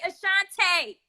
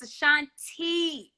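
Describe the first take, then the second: First: Ashante with "tay" on the end; mock his Ashante, ending on a long AY; imitated mispronunciation. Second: [name] ending in a drawn-out "tee"; correct name pronunciation. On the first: Singer telling host to stop, imitated mispronunciation Ashante ending in "tay". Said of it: "I know that's your accent". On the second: Shown as a demonstration. Singer correcting host on her name, [name] ending in "tee". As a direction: show [name] with a long EE ending. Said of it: "It's [name] with an E".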